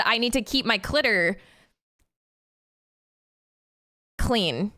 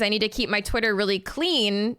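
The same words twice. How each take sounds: First: "Twitter" garbled into "clitter", then a late "clean"; slip of the tongue. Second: Said in the usual way. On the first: Retold or imitated. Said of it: "But instead I said". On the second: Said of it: "I was trying to say".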